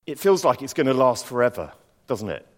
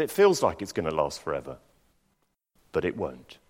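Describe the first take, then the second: First: Gentle knowing question; doctor's sympathy. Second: Calm, lower, reassuring voice; said very calmly. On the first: Doctor on the phone to a sick friend, gentle. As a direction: ask it kindly, like you understand. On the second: Doctor calmly reassuring a sick friend, calm. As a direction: soothe him, quietly sure. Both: Retold or imitated. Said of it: "And he just said very calmly".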